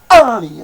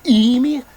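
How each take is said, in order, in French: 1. Le mot commence par un 'a' ouvert. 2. Le mot commence par le son vocalique 'e'. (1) "mais amir" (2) "Non pas émir"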